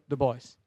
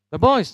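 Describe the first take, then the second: First: Said in the usual way. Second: Put-on BOYS said high and loud, rising; emphatic answer. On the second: Shown as a demonstration. Preacher answering his own question, loud emphatic answer. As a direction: punch "The boys" as the obvious answer.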